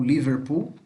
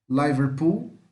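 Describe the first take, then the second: First: "Liverpool" starting with a short "li"; "li" variant. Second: "Liverpool" starting with "lie"; "lai" variant. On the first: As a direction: say "Liverpool" as li-ver-pool, tune rising. ("Liverpool" com som de "li" no começo) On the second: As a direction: say "Liverpool" as lie-ver-pool, tune rising. ("Liverpool" com som de "lai" no começo) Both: Shown as a demonstration. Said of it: "Ou Liverpool".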